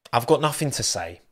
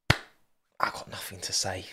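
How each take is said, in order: First: Said in the usual way. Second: Hushed, breathy whisper that drops the voice away; slow, unvoiced mock whisper. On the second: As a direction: whisper it like a guilty secret. Whispered, then repeated plainly.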